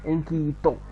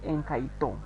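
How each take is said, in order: First: The middle vowel is pronounced as a plain 'i'. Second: The middle vowel is pronounced as a diphthong 'ai'. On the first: This is how people commonly say it. "but we call it Enkito because this I is called E" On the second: This is the standard form of the word. "In the right pronunciation is Enkaito"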